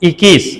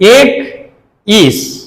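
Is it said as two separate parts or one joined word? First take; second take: one word; separate parts. First: It is said as one joined word, ikkees. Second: It is said as two separate parts, ek and ees. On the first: The speaker calls it right. "இக்கீஸ் அப்படின்னு சொல்றோம்" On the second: The speaker calls it wrong. "ஏக் அப்படின்னு சொல்லுவோமா?"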